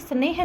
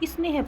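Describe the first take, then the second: First: The word starts directly with the s sound. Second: A short i vowel comes before the s. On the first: The speaker calls it wrong. "स्नेह ना पढ़ करके" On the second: The speaker calls it right. "यहाँ पर ई का उच्चारण होगा"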